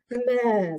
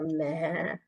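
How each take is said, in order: First: Higher, louder goat bleat. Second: Said in the usual way. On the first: Acted. Goat's sound in story. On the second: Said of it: "Could be "baa" or".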